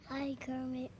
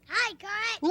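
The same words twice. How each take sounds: First: It is said at moderate volume. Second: It is said very loudly.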